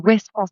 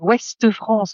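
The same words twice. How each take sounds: First: No vowel follows the word 'Ouest'. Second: An extra vowel follows the word 'Ouest'. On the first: The speaker calls it right. "on dit Ouest France, il y a pas de E" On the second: The speaker calls it wrong. "Arrête de dire Ouest France"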